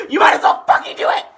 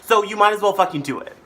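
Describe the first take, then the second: First: High, full-voiced shout. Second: Higher, louder push; insistent. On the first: Pushing viewers to subscribe, shouted. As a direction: yell it at the top of your voice. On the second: Urging viewers to subscribe, insistent. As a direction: press it on them, loud and high. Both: Real, not acted.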